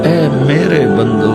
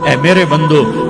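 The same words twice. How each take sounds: First: It is said in a warm, tender tone. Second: It is said in a plain, flat tone. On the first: The speaker calls it right. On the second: The speaker calls it wrong.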